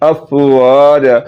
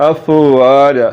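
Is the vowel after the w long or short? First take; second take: long; long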